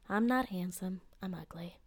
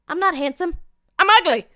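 First: It is said in a flat, plain tone. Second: It is said in an upbeat, cheerful tone.

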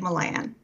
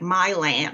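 First: The name is said without a Texan accent. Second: The name is said with a Texan accent. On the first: This is how the speaker usually says it. "I usually say Milan" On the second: Someone else said it this way. "he put this Texan spin on it. It was like Milan or something"

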